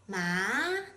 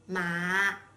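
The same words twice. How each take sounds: First: The pitch rises from middle to high. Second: The pitch dips to the bottom of the voice. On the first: It means hemp. "a rising tone" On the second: It means horse. "a low tone"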